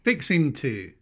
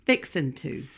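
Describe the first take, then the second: First: "Fixing" with a full -ing ending. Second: "Fixin'" with a clipped -in ending, no g; Southern fixin'. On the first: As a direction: say "Fixing" in standard spelling, g sounded. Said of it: "I didn't say fixing". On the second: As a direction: drop the g in "Fixin'". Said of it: "I didn't say fixing. I said fixin'". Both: Shown as a demonstration.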